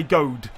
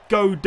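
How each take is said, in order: First: "gold" said as one syllable, GOHD; one-syllable pronunciation. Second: "gold" said as two syllables, GOH-duh; two-syllable pronunciation. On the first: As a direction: say "gold" as a single beat ending on the d. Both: Shown as a demonstration. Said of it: "one syllable or two?".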